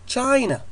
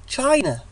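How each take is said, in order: The two takes are said the same way.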